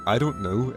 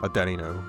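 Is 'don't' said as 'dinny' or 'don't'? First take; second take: don't; dinny. First: The middle word sounds like 'don't'. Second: The middle word sounds like 'dinny'.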